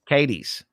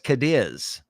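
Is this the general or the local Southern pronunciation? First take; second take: southern; general. First: It is said the local Southern way. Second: It is said the general outsider way. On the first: This is how locals say the town name. The speaker calls it right. "we have a bunch that are pronounced Southern" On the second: This is how outsiders say the town name. The speaker calls it wrong. "everybody says Cadiz"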